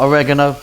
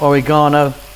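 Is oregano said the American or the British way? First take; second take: American; British. First: The word is said the American way. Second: The word is said the British way.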